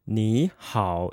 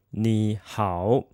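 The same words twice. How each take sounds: First: 你好 with 你 rising as second tone, 好 dipping low; third-tone change. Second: 你好 word by word, each syllable in its own low third tone; unchanged third tones. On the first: Teacher shows learners what we say instead, changed tone. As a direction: lift 你 upward, then drop into a low 好. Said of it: "first third tone actually becomes a second tone". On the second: Teacher shows learners the form not used, unchanged third tones. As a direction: keep 你 low and separate from 好, both third tone. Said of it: "instead of saying 你好". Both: Shown as a demonstration.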